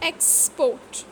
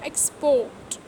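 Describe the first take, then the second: First: The stress is on the first syllable. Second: The stress is on the last syllable. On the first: It is used as a noun. "two syllable nouns" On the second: It is used as a verb. "Stress on last syllable rule"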